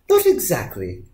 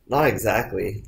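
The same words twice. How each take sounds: First: It is read in a put-on character voice. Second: It is read in the narrator's plain voice. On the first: The speaker calls it right. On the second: The speaker calls it wrong.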